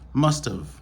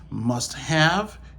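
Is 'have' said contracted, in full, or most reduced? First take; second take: contracted; full. First: The have is shortened into a contraction. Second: Both words are said in full, unreduced. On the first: "yo utilisé la forme contractée" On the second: "Au lieu natif, yo dit must have"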